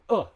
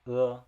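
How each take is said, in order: First: The vowel is said loudly and forcefully. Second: The vowel is said softly and gently. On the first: The speaker calls it wrong. "instead of like saying uh" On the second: The speaker calls it right. "you say it softer, so it becomes uh"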